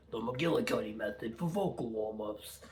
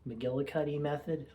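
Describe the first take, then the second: First: Playful put-on McGillicuddy accent, R's dropped; jokey, badly faked McGillicuddy accent; mock McGillicuddy accent. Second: Said in the usual way.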